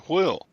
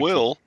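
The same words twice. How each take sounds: First: It starts with a breathy hw sound. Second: It starts with a plain w sound. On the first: The speaker calls it right. "It's a steering wheel" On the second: The speaker calls it wrong. "It's not a steering wheel"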